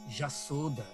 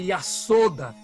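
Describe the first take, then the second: First: The word begins with a J sound. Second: The word begins with a Y sound. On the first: "eles falam Jasoda" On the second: "Eles não falam Yasoda"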